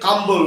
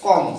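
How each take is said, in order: First: A b sound is heard after the m. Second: The word ends on the m, no b. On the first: The speaker calls it wrong. "আমরা অনেক সময় কাম্বল বলে ফেলতে পারি" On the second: The speaker calls it right. "সেটা উচ্চারণ করতে হয় কম"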